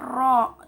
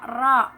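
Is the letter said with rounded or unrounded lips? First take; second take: rounded; unrounded. First: The letter is said with rounded lips. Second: The letter is thick, with unrounded lips. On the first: The speaker calls it wrong. "tidak boleh ro, tidak boleh monyong" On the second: The speaker calls it right. "hukumnya yaitu tafkhim atau tebal. Jadi dibacanya ro ro gitu kan"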